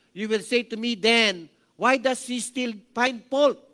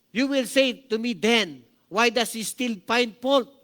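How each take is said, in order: Both takes have the same delivery.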